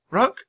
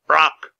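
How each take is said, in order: First: "Rock" high with a rising, asking tune; questioning repeat. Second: Loud, raised croaking bird voice; raven's croak. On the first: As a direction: check the name "Rock" as a question. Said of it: "Your name is Rock?". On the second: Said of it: "the raven croaked". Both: A narrator's reading.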